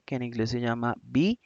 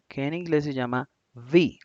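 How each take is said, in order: First: B said as "bee" with both lips closed; "B" as a crisp bilabial bee; English B. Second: "V" buzzed against the lip; English V. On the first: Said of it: "La B la pronunciamos uniendo los dos labios". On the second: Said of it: "es un sonido labiodental". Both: Shown as a demonstration. Teacher contrasting B and V for students.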